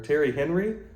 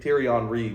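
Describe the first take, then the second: First: The name is said with an American pronunciation. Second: The name is said with a French pronunciation. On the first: The speaker calls it wrong. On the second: The speaker calls it right.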